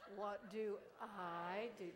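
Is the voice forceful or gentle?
gentle. The voice is soft and gentle. The speaker calls it right. "so gently"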